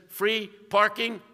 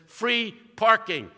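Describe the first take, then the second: First: Slow, pointed "Free parking", louder; reading aloud again. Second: Slow, drawn-out, louder, pointed "Free parking"; mock reading aloud. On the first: Retold or imitated. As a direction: tap the words again, slowly. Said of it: "See, it says". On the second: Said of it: "the newspaper where it says".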